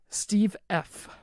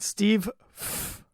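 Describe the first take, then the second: First: The letter F is pronounced the normal way. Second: The letter F is pronounced in a distorted way.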